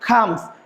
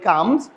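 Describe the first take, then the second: First: The first consonant has a strong puff of air. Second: The first consonant has no puff of air. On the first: The speaker calls it right. "সঠিক উচ্চারণ বা pronunciation হচ্ছে খামস" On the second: The speaker calls it wrong. "এটাকে আমরা বলি কামস"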